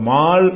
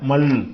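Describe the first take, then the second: First: The vowel is drawn out long. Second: The vowel is kept short. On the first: The speaker calls it wrong. "மால் என்று வராம" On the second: The speaker calls it right.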